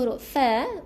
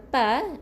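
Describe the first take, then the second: First: It begins with an 'f' sound. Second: It begins with a 'p' sound. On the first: The speaker calls it right. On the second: The speaker calls it wrong. "bukan pa"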